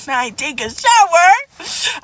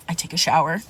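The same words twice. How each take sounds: First: Shower dragged out in disbelief; slow, drawn-out and higher. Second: Said in the usual way. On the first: Shown as a demonstration. Telling the listener how she finally got home, drawn out. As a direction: stretch the word shower long and high, falling slowly.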